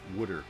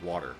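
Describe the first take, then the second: First: It is said with a New Jersey accent. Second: It is said with a standard accent. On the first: "Wooder instead of water" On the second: "instead of water"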